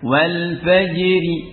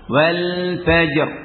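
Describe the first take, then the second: First: The r is thin and followed by an i. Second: The phrase stops on a thick, heavy r. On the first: The word runs on into the next word. "Ini dibaca tipis ya" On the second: The reciter pauses at the end of the word. "dibaca tebal karena ra waqaf"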